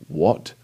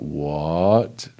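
First: The word sounds sharp and demanding. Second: The word sounds astonished and amazed. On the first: The speaker wants an answer from someone. "then that's kind of like I'm demanding an answer from someone" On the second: The speaker can't believe what was said. "Like someone just told me something amazing or just crazy"

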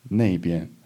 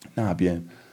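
First: The first syllable is said with a 'nei' sound. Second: The first syllable is said with a plain 'na'. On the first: "the ne is purely spoken. And it's a bit more colloquial" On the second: "So this character, na"

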